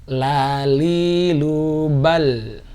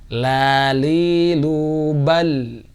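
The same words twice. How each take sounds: Both takes have the same delivery.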